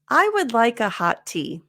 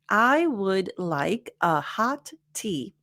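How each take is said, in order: First: The words are linked together smoothly. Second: Each word is said separately, like a robot. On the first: "since we're not robots" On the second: "if I were Siri or some other robot, it would sound like this"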